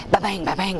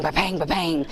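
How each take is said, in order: First: Bouncy ba-bang with a rising end; ball bouncing sound. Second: Bouncy ba-bang settling down at the end; ball bouncing sound. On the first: Mom mimics son's basketball bouncing indoors, rising bounce sound. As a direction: copy the thud of a bouncing ball, lifting up. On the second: Mom mimics son's basketball bouncing indoors, falling bounce sound. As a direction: copy the thud of a bouncing ball, dropping off. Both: Retold or imitated.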